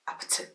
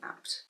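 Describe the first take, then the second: First: The word ends with a vowel after the t. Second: The word ends sharply on the t sound. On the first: This is how it is said in the song. "in the song it's Apte" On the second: This is a plain everyday way of saying it. "Or you're just saying apt?"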